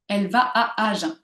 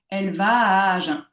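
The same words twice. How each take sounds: First: The A vowels are separated by short breaks. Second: The A vowels run together without any silence. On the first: The speaker calls it wrong. "Je ne dis pas" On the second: The speaker calls it right. "sans qu'il y ait de silence"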